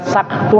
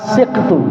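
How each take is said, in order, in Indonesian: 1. Vokal pertamanya adalah a. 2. Vokal pertamanya adalah i.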